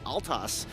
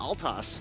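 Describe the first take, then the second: First: The L sound comes before the T. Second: The same.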